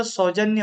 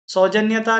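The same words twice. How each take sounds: First: सौजन्य, ending on न्य with no ता; correct form. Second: सौजन्यता with an extra ता; the mistaken सौजन्यता; wrong form. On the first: Teacher gives the correct word सौजन्य. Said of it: "होता है". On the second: Teacher marks the wrong word सौजन्यता. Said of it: "नहीं होता". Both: Shown as a demonstration.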